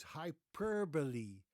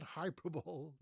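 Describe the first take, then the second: First: "hyperbole" as hy-PER-buh-lee; four-syllable "hyperbole", hy-PER-buh-lee; correct hyperbole. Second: "hyperbole" as HYPER-bowl; "hyperbole" wrongly ending in "bowl"; mispronounced hyperbole. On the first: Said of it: "No, it is". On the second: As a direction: rhyme "hyperbole" with Super Bowl. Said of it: "it's not". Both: Shown as a demonstration.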